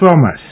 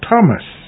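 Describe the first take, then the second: First: The word begins with a TH sound. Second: The word begins with a plain T sound. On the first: The speaker calls it wrong. "not Thomas" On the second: The speaker calls it right. "Thomas with a T"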